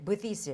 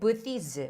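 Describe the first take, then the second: First: The word is said with a non-native pronunciation. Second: The same.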